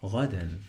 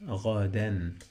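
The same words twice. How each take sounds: First: "ghadan" run together briskly, French-like r first; connected word. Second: "ghadan" drawn out by syllable, French-like r first; sounded-out word. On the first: Teacher models the whole word, connected. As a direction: say "ghadan" as one short word, ending on n. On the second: Teacher builds the word for learners, drawn out. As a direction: stretch "ghadan" into gha and dan, clear n. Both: Shown as a demonstration. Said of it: "I have the sound of N".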